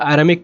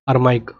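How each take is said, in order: First: The word is said as a-RAA-mik, ending in 'mik'. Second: The word is said as ar-MAIK, ending in 'maik'. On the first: This is how it is read in many places. "या अरामिक पढ़ा जाता है कई जगह" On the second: This is how it is said in Hindi. "वैसे अरमाइक बोलते हैं हिंदी में, अरमाइक ऐसे"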